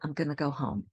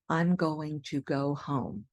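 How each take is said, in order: First: Going to is squished into gonna. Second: Every word is said fully and clearly. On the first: The speaker calls it right. "I say, ... Going to becomes gonna" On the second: The speaker calls it wrong. "I don't say"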